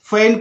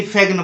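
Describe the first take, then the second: First: फेन as "fen", no G; silent G. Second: फेगन with a hard G before the N; G sounded. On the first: Teacher giving the right reading, G silent in फेन. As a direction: straight from vowel to N in फेन. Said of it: "फेन पढ़ना है". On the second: Teacher showing the mistake, G pronounced in फेगन. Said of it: "ना कि फेगन पढ़ना है". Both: Shown as a demonstration.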